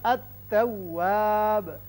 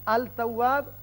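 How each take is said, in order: First: The l merges into a doubled t. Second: The l is clearly sounded before t. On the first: The speaker calls it right. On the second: The speaker calls it wrong.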